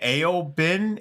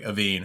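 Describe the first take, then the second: First: The name is said with a b sound. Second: The name is said with a v sound. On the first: The speaker calls it wrong. "how the hell do you pronounce that?" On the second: The speaker calls it right. "they're like Aveen"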